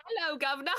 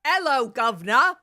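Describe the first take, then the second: First: Put-on laughing British accent, higher; a giggly second go at Cockney. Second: Mock Cockney greeting, pushed out loud; a cheery London street hello; British accent. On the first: Player retries the British accent, laughing. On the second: Player tries a British accent on the greeting. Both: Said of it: "how to do a British accent".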